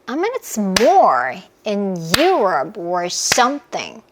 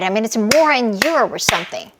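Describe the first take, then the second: First: It is said very slowly. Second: It is said at a moderate speed.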